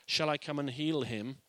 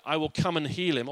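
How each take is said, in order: First: "Shall I come and heal him?" with "shall" stressed and the pitch rising at the end; a real question that rises on "Shall I come and heal him?". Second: "I will come and heal him" said as a flat statement with a falling end; a plain promise with "will" landing and the tune dropping at "him"; firm statement. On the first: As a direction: ask it, lifting the tune at the close. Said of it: "it can be read as a question". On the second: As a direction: state "come" firmly, ending on a fall. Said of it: "it can be read that". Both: Shown as a demonstration.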